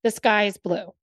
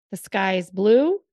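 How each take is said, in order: First: Said in the usual way. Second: "The sky is blue" with blue rising like a question; sky is blue, asked not stated; questioning rise on blue. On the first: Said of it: "if I said to you". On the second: Shown as a demonstration. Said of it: "Did you question?".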